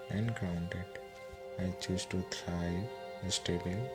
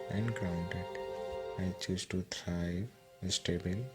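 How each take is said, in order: Both takes have the same delivery.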